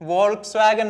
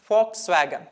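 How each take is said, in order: First: The word begins with a V sound. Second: The word begins with an F sound. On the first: The speaker calls it wrong. "കുറെ ആളുകൾ ഇപ്പോഴും വോൾക്സ് വാഗൺ എന്ന് വായിക്കുന്നുണ്ട്. തെറ്റാണ്" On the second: The speaker calls it right. "വി വരുന്ന സമയത്ത് ജർമ്മനിൽ ഉച്ചരിക്കുന്നത് എഫ് ആയിട്ടാണ്"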